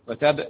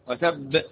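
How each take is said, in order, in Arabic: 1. الباء الأخيرة تُقطع قصيرة بدون ارتداد. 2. الباء الأخيرة مشددة ومرتدة بالقلقلة. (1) "ما قلتش وتب" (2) "الباء يوقف عليها بالقلقلة والتشديد، ... وتب هكذا"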